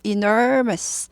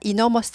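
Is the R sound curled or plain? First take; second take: curled; plain. First: The R is said with a curled tongue. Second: The R is said without a curled tongue. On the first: The speaker calls it right. "R이 있으니까 구부립니다" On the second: The speaker calls it wrong. "enormous 아니고"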